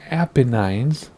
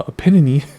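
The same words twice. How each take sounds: First: "Apennines" as APP-uh-nines; Apennines ending in "nines". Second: "Apennine" said uh-PEN-uh-nee; Apennine ending in "nee". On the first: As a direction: end "Apennines" on a long-I "nines". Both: Shown as a demonstration. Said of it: "also called the Apennine".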